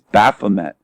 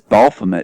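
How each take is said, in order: First: The word has no L sound. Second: The word has an added L sound. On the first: The speaker calls it right. "it's Baphomet. There's no L" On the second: The speaker calls it wrong. "He says Baphomet"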